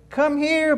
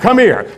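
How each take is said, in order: First: It is said in a gentle, coaxing tone. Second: It is said in a harsh, angry tone. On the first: The listener feels welcome despite threatening words. "And the dog comes" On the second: The listener feels threatened despite kind words. "And the dog gets all nervous"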